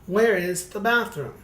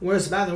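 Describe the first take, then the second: First: It is said slowly. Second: It is said fast.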